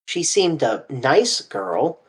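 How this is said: The stress is on "nice".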